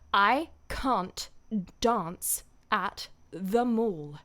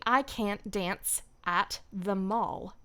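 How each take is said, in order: First: It is spoken in a British English accent. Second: It is spoken in an American English accent. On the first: "how to do that accent" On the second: "in an American accent"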